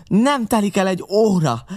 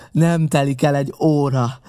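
First: Much higher, louder yell, NEM hammered; first, wildest cry of the threat; furious threat. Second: Louder, heavier, NEM stressed, less high; pirate repeating his threat more grimly; angry repeated threat. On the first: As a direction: scream the warning. Pirate's furious parting threat. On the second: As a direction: pound the warning home. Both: A narrator's reading.

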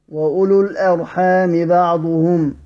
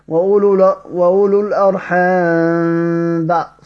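First: وأولو الأرحام بعضهم with the meem of الأرحام pronounced fully and clearly before the baa, a little slow; clear meem reading. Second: وأولو الأرحام بع with the meem of الأرحام hidden into the baa, slow and nasal-free of a clear meem; merged meem reading. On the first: Teacher giving students the correct clear reading, slowly. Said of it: "لذلك تقرأ بالإظهار". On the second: Teacher showing students the awkward wrong way, slowed down. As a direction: read الأرحام بعضهم running the meem into the baa, the hard way. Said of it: "لأن يقرأها كهكذا". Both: Shown as a demonstration.

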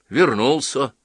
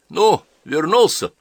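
First: Said in the usual way. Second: "вернулся" asked slow with a lift; questioning. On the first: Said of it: "также буднично ответил Половинкин". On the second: A narrator's reading. Old priest greets the returner, asking "вернулся" high and slow. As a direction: draw out "вернулся" as a higher question.

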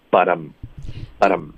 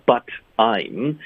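First: "um" reduced to a short weak um. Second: "I'm" said slowly as a full vowel. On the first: Teacher demonstrating the weak reading to students. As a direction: glide "but um" together, weak and slow. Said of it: "所以就发but um". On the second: Teacher showing the full form of I'm to students. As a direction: spell out "but I'm" with the full I'm. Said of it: "会把I'm弱读为um". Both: Shown as a demonstration.

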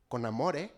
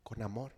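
First: With love. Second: Con amor said lower and softer, tender; with love, softly. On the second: Pastor tells parents to correct sons con amor, softly. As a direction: say con amor gently, not angrily. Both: Shown as a demonstration. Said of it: "No con coraje".

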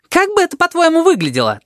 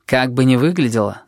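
First: Agitated. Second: Said in the usual way. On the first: Acted. Tabaki argues with Sphinx.

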